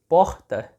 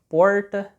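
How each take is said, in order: First: Said with a soft, Bahia-style r. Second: Said with a strong, drawn-out Paraná-style r. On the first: "Lá na Bahia, por exemplo, eles falariam" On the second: "aqui no Paraná ... um R C R bem mais puxado"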